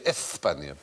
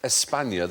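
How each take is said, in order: First: The middle sound is a lisped th. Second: The middle sound is a plain s. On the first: "they would lisp it all the time" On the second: "They wouldn't say España"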